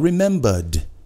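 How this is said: The R sound is dropped. This is the British way.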